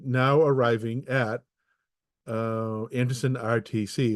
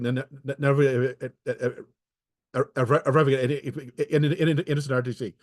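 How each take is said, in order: First: Each word is spaced apart distinctly. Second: The words are run together without gaps. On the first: The speaker calls it right. "at least it made distinct" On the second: The speaker calls it wrong. "it kind of like says it all together"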